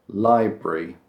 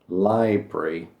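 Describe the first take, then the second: No difference in how they are said.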